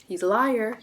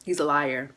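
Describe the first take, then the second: First: "He's a liar" higher and louder the second time; emphatic repeat. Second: Said in the usual way. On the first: Real, not acted. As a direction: hammer the warning home, higher and louder. Repeats warning to viewers.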